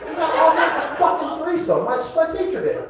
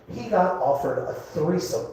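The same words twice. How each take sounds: First: High-pitched comic outrage; indignant disbelief. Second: Said in the usual way. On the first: Acted. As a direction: squeal it, scandalized at being passed over. Indignant repeat, he's the headliner.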